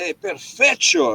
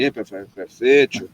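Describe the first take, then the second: First: Retold perfecto. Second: Slow, low mocking "perfecto", drawn out; teasing imitation. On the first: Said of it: "I said". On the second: Friend mocking him with his own word, slow teasing parody. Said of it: "still doing that to me when he meet me".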